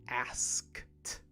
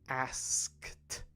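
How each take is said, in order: The two takes are said the same way.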